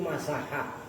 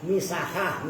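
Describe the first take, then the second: First: The first vowel is an 'a' sound. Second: The first vowel is an 'i' sound. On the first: The speaker calls it wrong. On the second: The speaker calls it right.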